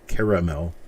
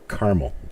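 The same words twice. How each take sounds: First: The word is said with three syllables. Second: The word is said with two syllables. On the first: "three three syllables" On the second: "two syllables"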